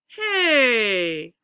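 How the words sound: The pitch falls on the word. "and we'll go down"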